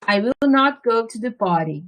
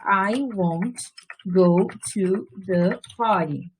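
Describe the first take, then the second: First: The words will not are said in full. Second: The words will not are contracted together.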